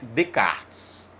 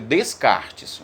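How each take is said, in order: First: Some written letters of the name stay silent. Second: Every written letter of the name is sounded. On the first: The speaker calls it right. "a pronúncia correta é Descartes" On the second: The speaker calls it wrong. "Se escreve Descartes"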